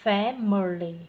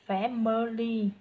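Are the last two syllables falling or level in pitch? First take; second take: falling; level. First: The last two syllables fall lower in pitch. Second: The last two syllables stay level in pitch. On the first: The speaker calls it right. "thì con thêm chữ huyền vào" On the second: The speaker calls it wrong. "Lúc nãy con đọc mỗi là family đó, thì dẫu còn ngang"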